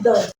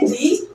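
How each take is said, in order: First: The vowel is a short 'uh' sound. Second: The vowel is a long 'ee' sound. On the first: The next word starts with a consonant sound. "यहाँ पे इसे pronounce करेंगे द" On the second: The next word starts with a vowel sound. "सो इसे हम pronounce करेंगे दी"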